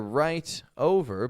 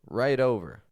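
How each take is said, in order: First: The t is a clear, crisp t sound. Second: The t is a quick d-like flap. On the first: "You didn't hear right over" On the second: "the flap T, as in right over, is when we pronounce T as a D"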